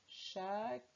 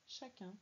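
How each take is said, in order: First: CHACUN broken in two, long gap before CUN; split syllables. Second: Said in the usual way. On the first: Shown as a demonstration. Teacher helping a pupil decode, CHACUN in split syllables. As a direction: sound out CHACUN one syllable at a time. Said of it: "première syllabe, ça fait".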